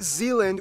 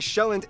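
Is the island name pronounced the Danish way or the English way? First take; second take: English; Danish. First: The name is said with English pronunciation. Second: The name is said with Danish pronunciation. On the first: The speaker calls it wrong. "not Zealand" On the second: The speaker calls it right. "I'm gonna pronounce the location names in their proper Danish context"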